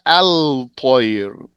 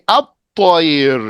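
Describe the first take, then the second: First: The L of the article is clearly pronounced. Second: The L merges into the following T sound. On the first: The speaker calls it wrong. "not al-tayr" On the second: The speaker calls it right. "You're going to say at-tayr"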